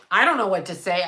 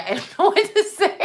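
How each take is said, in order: First: Said in the usual way. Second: Laughing. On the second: Real, not acted. Repeated line with laughter.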